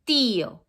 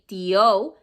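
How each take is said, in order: First: The stress falls on the first syllable. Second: The stress falls on the second syllable. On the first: The speaker calls it right. "with accent ... you say tío" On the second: The speaker calls it wrong. "You don't say tío"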